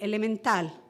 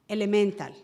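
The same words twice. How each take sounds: First: It is said with Spanish stress placement. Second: It is said with English stress placement. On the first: "in Spanish, we say elemental" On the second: "That's how we say it in English"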